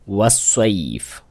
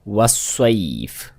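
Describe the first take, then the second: The two takes are said the same way.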